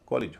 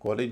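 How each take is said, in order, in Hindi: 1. दूसरे अक्षर में एक हल्का, कमज़ोर स्वर है। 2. दूसरे अक्षर में एक पूरा, स्पष्ट स्वर है। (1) "कॉलेज हो रहा है" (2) "कॉलेज नहीं हो रहा है"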